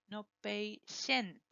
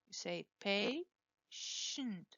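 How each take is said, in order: First: Patient with an extra E sound, PAY-shee-ent; wrong patient. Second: Patient drawn out slowly, PAY-shunt, no E; correct patient. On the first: Teacher mimics students saying patient wrongly. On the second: Teacher slowly contrasts the right patient. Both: Shown as a demonstration.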